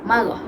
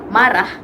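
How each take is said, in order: First: It is said with inland Terengganu dialect pronunciation. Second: It is said with standard Malay pronunciation. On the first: "akan berbeza bunyinya" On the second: "bahasa baku"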